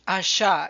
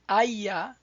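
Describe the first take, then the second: First: The middle consonant sounds like English sh. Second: The middle consonant sounds like English y.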